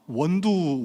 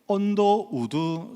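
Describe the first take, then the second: First: The name is said fast and squeezed together. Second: All syllables of the name are said clearly.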